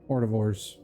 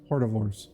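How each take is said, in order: First: The word is said with a 't' sound inside. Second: The same.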